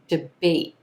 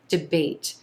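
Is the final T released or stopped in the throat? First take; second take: stopped; released. First: The final T is stopped in the throat. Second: The final T is gently released with air. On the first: "I'm holding the T at the end of this word. The air is coming up into my throat, stopping here in the throat" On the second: "or you can do a gently released T here"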